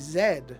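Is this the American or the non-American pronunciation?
non-American. It is said the non-American way. "They say Z, which I have to admit makes a lot of sense to me"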